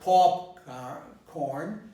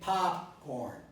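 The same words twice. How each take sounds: First: The first vowel is not an open 'ah'. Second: The first vowel is an open 'ah' sound. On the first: The speaker calls it wrong. "So it's not popcorn" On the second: The speaker calls it right. "I'm pronouncing this with a ah, with an ah"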